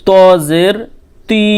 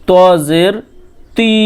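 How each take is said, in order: The two takes are said the same way.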